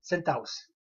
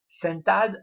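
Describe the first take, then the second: First: "sentados" said without its d, as sen-ta-os; dropped final consonant. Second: "sentados" said with the d pronounced, before os; full form with D. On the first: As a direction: drop the d in "sentados", run a into os. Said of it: "on va dire". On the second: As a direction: keep the d in "sentados". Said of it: "la chute du S final". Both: Shown as a demonstration.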